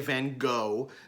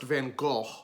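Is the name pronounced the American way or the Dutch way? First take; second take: American; Dutch. First: The name is pronounced the American way. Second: The name is pronounced the Dutch way.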